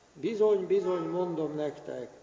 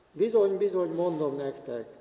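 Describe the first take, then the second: The two takes are said the same way.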